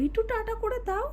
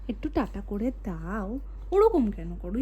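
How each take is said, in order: First: High, soft, squeaky voice for একটু tata করে দাও; squeaky silly voice. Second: Low, slow, mock-gruff voice for একটু tata করে দাও; deep silly voice. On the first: Pretend. Mother coaxing toddler to wave bye, high, soft, squeaky voice. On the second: Mother coaxing toddler to wave bye, low, slow, mock-gruff voice.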